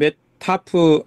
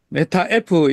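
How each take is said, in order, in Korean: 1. F가 'a' 모음과 합쳐져 한 단어로 발음돼요. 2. F는 따로 글자 이름으로 발음해요. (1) "영어를 그대로 그러면 메타프" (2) "이거는 뭐 콩글리시고요"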